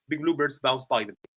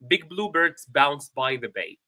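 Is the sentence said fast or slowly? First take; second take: fast; slowly. First: The sentence is spoken quickly and smoothly. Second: The sentence is spoken slowly and carefully. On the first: "I get faster and faster as I go" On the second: "You can say it this slow"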